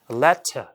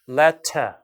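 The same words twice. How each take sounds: First: The word ends with an audible r sound. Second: The word ends with no r sound. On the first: The speaker calls it wrong. "이렇게 letter가 아니고" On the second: The speaker calls it right. "letter 이렇게 이제 빠지는 거죠"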